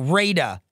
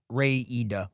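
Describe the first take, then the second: First: It sounds like 'Raider', with two syllables. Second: It sounds like 'Ray-Ida', with three syllables. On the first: The speaker calls it right. "Like Raider or Radar" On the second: The speaker calls it wrong. "not Ray-Ida"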